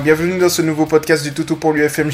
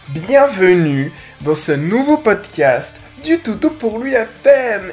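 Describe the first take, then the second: First: The words are slurred and poorly articulated. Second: The words are clearly and carefully articulated. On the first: The speaker calls it wrong. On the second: The speaker calls it right.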